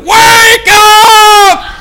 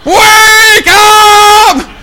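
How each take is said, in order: No difference in how they are said.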